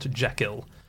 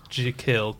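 First: The first vowel is a short sound. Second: The first vowel is a long 'ee' sound. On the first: The speaker calls it wrong. "not Jekyll" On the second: The speaker calls it right. "it's J-E-E, and then kill"

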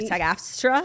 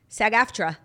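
First: An extra S sound follows the F. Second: No S sound follows the F. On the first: The speaker calls it wrong. "And you say it weird" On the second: The speaker calls it right. "watch me"

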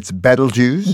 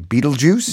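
First: It is not said like the word Beetlejuice. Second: It is said like the word Beetlejuice. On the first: This is the more correct pronunciation. The speaker calls it right. "More correctly" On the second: This is the popular pronunciation. The speaker calls it wrong. "A lot of people say Betelgeuse. ... After that crazy character in the movie"

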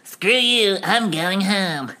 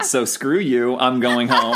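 First: It is said in a put-on character voice. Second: It is said in his ordinary voice.

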